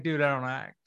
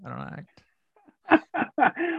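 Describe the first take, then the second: First: Said in the usual way. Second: Drawn out, laughing through it with a high rise; laughing protest. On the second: Retold or imitated. Protesting to a frustrated writer through laughter. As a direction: stretch "act" very slowly while laughing. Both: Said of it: "I'm like".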